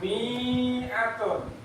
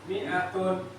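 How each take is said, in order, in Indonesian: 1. Vokal setelah m dibaca panjang. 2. Vokal setelah m dibaca pendek. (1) "jangan mi'atun" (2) "ini bacanya pendek"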